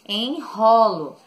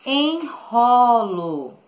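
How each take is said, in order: First: Said in the usual way. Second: Enrolo drawn out slowly, syllable by syllable; slow syllable stress. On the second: Shown as a demonstration. Teacher dictating a word to pupils, slow and drawn out. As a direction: stretch out enrolo slowly so the kids hear each syllable. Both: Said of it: "que é a palavra".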